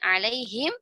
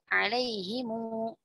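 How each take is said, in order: First: The word ends with the syllable him. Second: The word ends with the syllables himu.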